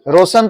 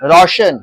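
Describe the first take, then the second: First: The middle consonant is a plain 's' sound. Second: The middle consonant is an 'sh' sound. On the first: The speaker calls it wrong. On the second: The speaker calls it right.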